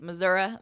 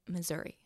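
First: It is pronounced the southern Missouri way. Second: It is pronounced the St. Louis/Kansas City way. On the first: The speaker is from the southern part of the state. "If you're from the southern part of Missouri, it's Missouri" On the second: The speaker is from St. Louis or Kansas City. "But if you're from St. Louis or Kansas City, it's Missouri"

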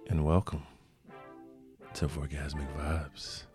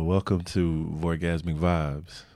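First: It is said in a sultry put-on voice. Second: It is said in a normal speaking voice.

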